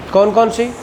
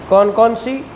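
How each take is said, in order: Both takes have the same delivery.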